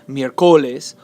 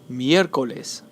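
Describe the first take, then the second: First: The stress falls on a later syllable. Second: The stress is on the first syllable. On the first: The speaker calls it wrong. "It's not" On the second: The speaker calls it right. "The stress is on the third to last syllable"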